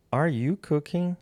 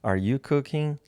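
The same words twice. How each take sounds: First: "Are you cooking?" high and slow, rising at the end like a question; slow, raised "Are you cooking?" to model the rising question; question rise. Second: "Are you cooking?" at a lighter lift and a normal pace; quicker question. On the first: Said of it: "nós vamos mudar a entonação". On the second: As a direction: retake "Are you cooking?" with a smaller rise. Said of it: "vou fazer de novo". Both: Shown as a demonstration.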